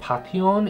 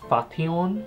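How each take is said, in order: First: The name is said with a Korean pronunciation. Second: The name is said with an English pronunciation. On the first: "this is actually pronounced Pation in Korean" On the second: "in English it will be pronounced as Fation"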